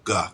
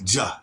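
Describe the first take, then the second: First: The consonant is a hard G sound. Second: The consonant is a soft J sound. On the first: "instead of ga" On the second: "It can also be J pronounced as J. Like ja"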